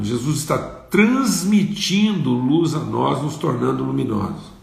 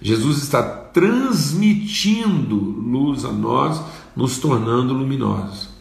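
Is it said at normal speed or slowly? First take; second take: normal speed; slowly. First: It is said at normal speed. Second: It is said slowly.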